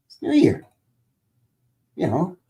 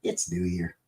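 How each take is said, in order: First: Squeaky high cartoon voice; high goofy voice. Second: Said in the usual way. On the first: Shown as a demonstration. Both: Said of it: "goofy voices".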